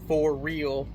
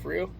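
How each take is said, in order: First: The two words are said separately and fully. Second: The two words are merged into one. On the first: "I would not go for real all the time" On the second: "kind of merge the words together"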